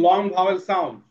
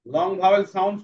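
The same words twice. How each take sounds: The two takes are said the same way.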